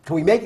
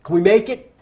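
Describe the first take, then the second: First: Said in the usual way. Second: Calling out over wind. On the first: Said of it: "I said". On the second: Retold or imitated. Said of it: "I said to the captain".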